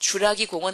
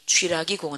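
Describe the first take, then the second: First: The first syllable has a plain 'u' vowel. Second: The first syllable has a 'wi' vowel. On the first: The speaker calls it wrong. "주라기 공원 아니고" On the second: The speaker calls it right. "프랑스식 발음이거든요"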